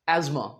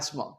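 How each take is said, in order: First: The middle consonant is a 'z' sound. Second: The middle consonant is an 's' sound. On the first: "American English में इसे स की बजाय अक्सर ज बोला जाता है" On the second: "British English में क्या कहते हैं?"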